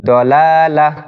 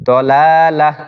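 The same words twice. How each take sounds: Both takes have the same delivery.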